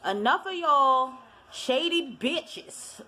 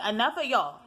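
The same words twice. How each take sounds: First: Slow, high, hammed-up diva snap at the women; exaggerated sassy version. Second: Said in the usual way. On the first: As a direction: camp it up, slower and higher than the real line. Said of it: "But she didn't say it like that". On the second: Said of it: "She was just like".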